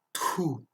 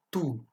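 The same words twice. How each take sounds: First: "tout" with a strong puff after the T; heavily aspirated "tout". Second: "tout" with a plain French T, no puff; short, unaspirated "tout". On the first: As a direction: push air out on the T of "tout". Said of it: "mais expiré". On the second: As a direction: say "tout" with an airless T. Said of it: "se prononce comme un T". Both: Shown as a demonstration.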